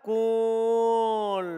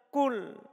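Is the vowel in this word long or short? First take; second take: long; short. First: The vowel is held long. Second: The vowel is cut short. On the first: This is the original form before the wau drops. "Aslinya itu adalah apa?" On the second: This is the form after the wau drops. "Karena ketemu dua sukun menjadi apa?"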